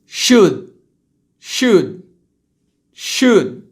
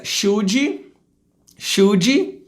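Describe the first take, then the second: First: Loud, falling "Should" stopped at d; true English pronunciation. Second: "Should" as "shoodgy", rising; Brazilian pronunciation. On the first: Teacher's correct take, "Should" with held d. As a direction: end "Should" on the d, no vowel. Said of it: "depois eu vou falar como se é". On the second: Teacher mimicking Brazilians, "Should" with final i. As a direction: add "jee" after "Should". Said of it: "vou falar como brasileiro falaria". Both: Shown as a demonstration.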